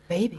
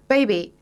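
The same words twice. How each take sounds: First: It is said in a put-on sexy voice. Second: It is said in an ordinary, plain voice.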